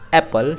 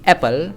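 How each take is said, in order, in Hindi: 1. p की आवाज़ एक बार, छोटी बोली जाती है। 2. p की आवाज़ एक बार, छोटी बोली जाती है।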